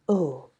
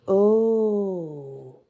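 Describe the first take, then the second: First: It is said in a curt, defiant tone. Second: It is said in a relieved, softened tone. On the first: The speaker is challenging the other person. "in my screw you tone" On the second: The speaker is glad nothing more happened. "This time my word is laced with relief"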